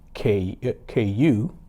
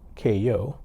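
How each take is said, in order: First: The word ends with an oo sound, like bayou. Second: The word ends with an oh sound. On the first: The speaker calls it wrong. "I'm pronouncing it K K U, uh, similar to how we pronounce Bayou" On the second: The speaker calls it right. "but it's pronounced K O"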